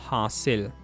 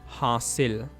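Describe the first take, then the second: The two takes are said the same way.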